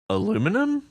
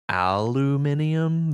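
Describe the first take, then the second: First: It is said the American way, four syllables. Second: It is said the British way, five syllables.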